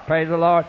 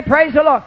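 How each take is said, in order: First: Grudging mumble. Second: Said in the usual way. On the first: Retold or imitated. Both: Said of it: "Everybody say".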